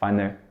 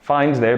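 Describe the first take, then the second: First: The D and TH sounds are almost dropped. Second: The D and TH sounds are fully pronounced.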